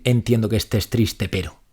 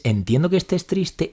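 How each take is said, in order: First: Dismissive. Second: Sincere validation. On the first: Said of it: "Validar no es decir". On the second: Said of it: "Validar una emoción es". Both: Shown as a demonstration.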